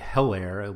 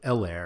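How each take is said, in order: First: The first E is said hard and emphatic. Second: The first E is said soft and relaxed. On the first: The speaker calls it wrong. "most of us don't say Helaire" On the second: The speaker calls it right. "We'll just say like Helaire"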